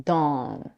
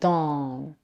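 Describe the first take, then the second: First: The vowel is said with rounded lips. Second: The vowel is said with rounded lips.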